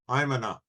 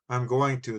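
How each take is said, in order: First: The words are squeezed into one short contraction. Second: Every word is said fully and separately. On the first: The speaker calls it wrong. "turn them into a contraction that doesn't exist" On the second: The speaker calls it right. "Instead of saying"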